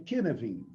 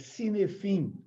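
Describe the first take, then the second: First: The word is said in its native way. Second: The word is said as it is spelled. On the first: The speaker calls it right. "mas que se pronuncia" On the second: The speaker calls it wrong. "se escreve, quando se lê, é"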